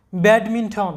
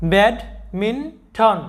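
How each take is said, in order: First: Said in the usual way. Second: badminton stretched very slowly, syllable by syllable; teacher slowly models badminton; slow demo pronunciation. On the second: Shown as a demonstration. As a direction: draw out badminton slowly for students to copy. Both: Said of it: "তাহলে আমাদের এই উচ্চারণটা কী হবে?".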